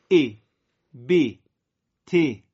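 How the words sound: The short vowel sounds like a clear 'i'. "در لهجه عربی ما دیگه ا نمیگیم، یه خود عربی تر کسره رو قرائت میکنیم"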